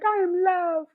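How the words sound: It is said in a mocking, airy, over-spiritual way.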